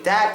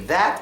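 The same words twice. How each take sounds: First: The word begins with a soft d sound. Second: The word begins with a th sound. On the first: "You can say that" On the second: "if you can't say that"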